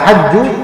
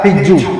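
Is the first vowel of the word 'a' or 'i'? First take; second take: a; i. First: The first vowel is an open 'a' sound. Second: The first vowel is a close 'i' sound. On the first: This is the more common form. "di fathah huruf ha-nya" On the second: This is the less common form. "di kasrah"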